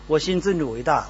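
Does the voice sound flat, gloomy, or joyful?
flat. It is said in a flat, plain tone. Only the bare words are conveyed. The speaker calls it wrong. "如果只是说文字，那我也可以这样说"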